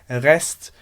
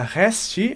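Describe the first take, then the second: First: The word ends cleanly on the T. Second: An extra vowel follows the final T. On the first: The speaker calls it right. "eu vou falar rest, porque realmente esse T não vai necessitar de uma vogal depois" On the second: The speaker calls it wrong. "eu não vou falar resti"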